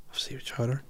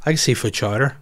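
First: Much softer, dreamy repeat of Seafood chowder; savouring murmur. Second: Said in the usual way. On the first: Real, not acted. Dreaming of his last meal, saying it softly to himself. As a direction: say it to yourself, savouring it.

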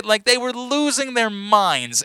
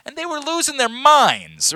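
First: "they were losing their minds" slowed right down, leaning on "they"; emphatic slow restatement. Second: Said in the usual way. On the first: Shown as a demonstration. Dad insisting to his buddy how thrilled the kids were, slow and emphatic.

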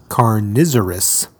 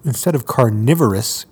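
First: Carnivorous said as car-NIZ-er-us; slow car-NIZ-er-us for carnivorous; deliberate mispronunciation. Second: Said in the usual way. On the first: Shown as a demonstration.

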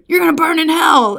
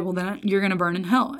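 First: Loud, high hellfire yell; mock screaming. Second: Soft, matter-of-fact verdict, no screaming; dead serious. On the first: Campus preacher condemning passing students, mock screaming. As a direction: imitate a street preacher damning someone. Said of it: "screaming at folks". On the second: Retold or imitated. Older preacher judging a student on the grass, dead serious. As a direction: imitate quiet, grave certainty. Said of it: "He was dead serious".

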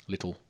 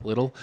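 First: Little said softly with a clear T, British style. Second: Little with a crisp, clearly sounded T; over-enunciated little. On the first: Explaining British pronunciation to friends, Little with a clear T. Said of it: "British to say it that way". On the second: Showing friends how Dax Flame says it, Little with a crisp T. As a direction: pronounce the T in Little sharply, Dax Flame style. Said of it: "over enunciates when he says little". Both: Shown as a demonstration.

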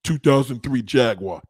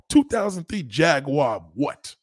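First: Lower, flat quote of the commenter saying "Two thousand three Jaguar"; a lightly mocking quote of a clueless commenter. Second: Slow, with a rising "what?" at the end; demanding what. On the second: Shown as a demonstration. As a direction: drag it out, then challenge with a rising "what?". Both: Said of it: "when you hear a motherfucker just say".

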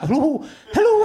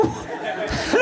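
First: Higher, laughing mock Scottish Hello, hello; hammed-up comedy Scottish accent, voiced; Ian McCaskill comedy Scottish. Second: Much higher, breathless squeaked comedy Scottish hello; a laughing voiceless mock Scottish squeak; Ian McCaskill squeak. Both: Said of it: "a comedy Scottish accent".

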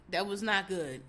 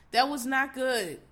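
First: Said in the usual way. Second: Slow emphatic. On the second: Real, not acted.

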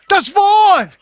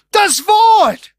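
First: More enthusiasm. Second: Said in the usual way. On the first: Shown as a demonstration. Preacher urging the congregation, shouting with enthusiasm. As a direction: shout it out, higher and louder. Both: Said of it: "Auch sagt das mit ein bisschen mehr Enthusiasmus".

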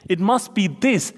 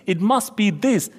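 No difference in how they are said.

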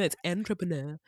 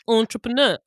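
First: "entrepreneur" opening with AN as in ant; softer mock correction, AN at the start of "entrepreneur"; mimicked correction. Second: "entrepreneur" opening with a nasal French ON; exaggerated "entrepreneur" with a rounded, nasal first syllable; full mouth and nose. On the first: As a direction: correct it mockingly, saying "entrepreneur" with a flat AN first syllable. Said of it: "You're like". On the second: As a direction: mimic a French-style "entrepreneur", ON through the nose. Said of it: "say it with your full mouth and nose".

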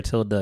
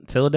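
First: "tilde" ending in a soft "uh"; "tilde" with an unstressed "-duh" ending; simpler pronunciation. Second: "tilde" ending in a long "ay"; "tilde" with a fancy "-day" ending; fancy pronunciation. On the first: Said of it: "I think it's just tilde". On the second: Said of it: "I think you got too fancy with it". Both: Shown as a demonstration.

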